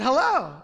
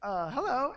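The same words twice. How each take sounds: First: Louder, higher friendly hello; imitating a cheerful girl calling out hello; bright greeting. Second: Unsure, caught-off-guard hello; imitating his own startled reply; hesitant hello. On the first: Young girl greeting the beggar, louder friendly hello. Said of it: "and she said". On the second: Beggar answering the girl, hesitant surprised hello. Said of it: "I was like".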